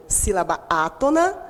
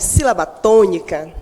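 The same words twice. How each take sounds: First: "sílaba átona" said gently, without punch; softer sound. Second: "sílaba tônica" said firmly, with a strong beat; strong tonicity. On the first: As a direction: let "sílaba átona" sound soft and unforced. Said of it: "soa com mais suavidade". ("sílaba átona" com suavidade) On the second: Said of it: "traz em si uma tonicidade forte". ("sílaba tônica" com tonicidade forte) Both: Shown as a demonstration.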